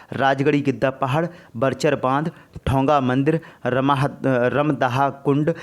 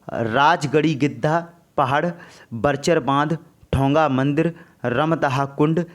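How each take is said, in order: Both takes have the same delivery.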